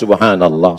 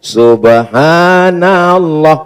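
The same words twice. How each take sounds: First: The word is said at normal length. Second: The word is stretched out extremely long. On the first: The recitation is suited to the situation. The speaker calls it right. "Ya sesuaikanlah" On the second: The recitation drags on far too long. The speaker calls it wrong. "Jangan Bapak besok jadi imam subuh, ... zuhur baru selesai"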